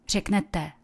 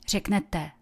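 Both takes have the same delivery.

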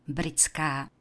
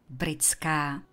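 No difference in how they are said.

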